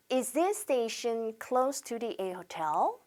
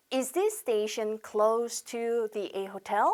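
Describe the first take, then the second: First: Slow, softer, "close" with s, "this station" linked; correct model reading. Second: "close" said wrongly as the verb, with a z; mispronounced close. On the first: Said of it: "그렇게 발음하셔야 됩니다". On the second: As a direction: read it slowly, getting "close" wrong. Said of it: "이렇게 읽으신 분들은 발음이 틀린 겁니다". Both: Shown as a demonstration.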